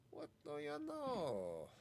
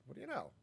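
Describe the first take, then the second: First: "What do you know?" drawn out slowly and higher; slow mock amazement. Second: Said in the usual way. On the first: Repeats phrase, drawn out.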